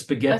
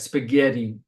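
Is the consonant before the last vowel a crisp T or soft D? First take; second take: crisp T; soft D. First: The consonant before the last vowel is a crisp T. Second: The consonant before the last vowel sounds like D. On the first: "instead of" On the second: "it sounds like I'm saying a D"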